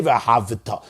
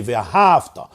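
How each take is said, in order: First: "V'yahavita" low, with an extra vi; V'yahavita, extra syllable before ta; pronounced shva. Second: "V'yahavta" stretched on hav, straight into ta; no vowel after v in V'yahavta; V'yahavta, closed syllable; silent shva. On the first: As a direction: sound the vowel in V'yahavita. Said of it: "an emphatically pronounced shva". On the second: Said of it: "The shva is a silent shva". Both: Shown as a demonstration.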